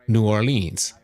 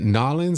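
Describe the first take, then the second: First: The name is said fully as separate parts. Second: The name is squeezed into two short syllables. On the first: This is how the speaker has always said it. The speaker calls it wrong. "my New York side says like I have all my life" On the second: This is how local people say it. The speaker calls it right. "Nolans or something like that that folks like to say it"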